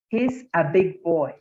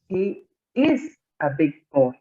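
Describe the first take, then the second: First: The pronoun and verb are joined in one syllable. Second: The pronoun and verb are said as separate words. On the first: "pronunciarlo como si estuviera contraído" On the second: "como si fuera eh, no contraída la forma"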